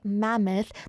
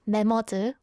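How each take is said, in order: First: It is said with an English pronunciation. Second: It is said with a Korean pronunciation. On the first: The speaker calls it right. "you have to say mammoth" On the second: The speaker calls it wrong. "which is mammoth in Korean"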